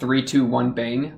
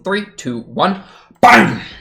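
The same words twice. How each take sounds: First: The words follow at an even, steady pace. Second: A long pause comes before the final word. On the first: "it's not like" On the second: "I always like add a big pause between one and bang"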